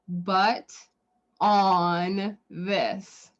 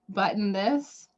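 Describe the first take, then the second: First: It is heard as butt plus on. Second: It is heard as the word button. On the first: "you could also pronounce it" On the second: "the name of the brand"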